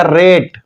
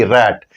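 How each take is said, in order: First: रेट with a long ए as in "late"; long A sound. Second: रैट with an open ऐ as in "cat"; short word without E. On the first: Teacher showing what E does to the word, रेट with long ए. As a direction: stretch the ए in रेट. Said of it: "ए का उच्चारण ए ही होगा". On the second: Teacher showing the word before E is added, रैट with open vowel. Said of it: "तो इस ए का उच्चारण". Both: Shown as a demonstration.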